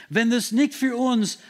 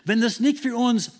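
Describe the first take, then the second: No difference in how they are said.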